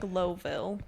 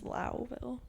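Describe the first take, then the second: First: The first syllable rhymes with 'go'. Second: The first syllable rhymes with 'too'. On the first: This is how the spelling looks. The speaker calls it wrong. "spelled like Lowville" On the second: This is how the town is actually called. The speaker calls it right. "but it's Louville"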